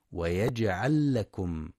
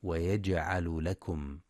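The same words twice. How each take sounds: First: ويجعل لكم with the two lams merged into one doubled l. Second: ويجعل لكم with the lams kept apart; mock mistake; wrong split lams. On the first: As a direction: run ويجعل into لكم as "yaj'al-lakum". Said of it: "لإدغام اللام مع اللام". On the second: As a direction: show the error: ويجعل then لكم separately. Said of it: "فلا يقرأ". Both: Shown as a demonstration.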